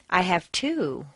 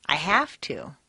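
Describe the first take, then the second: First: "two" stressed and falling. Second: "have" stressed, "to" reduced to a weak "tuh". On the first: Teacher answering how many kids, stress on two. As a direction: punch "two" and drop it. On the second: Teacher showing why-work answer, stress on have. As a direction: hit "have", swallow "to". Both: Shown as a demonstration. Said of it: "Use your rubber band for each stressed word".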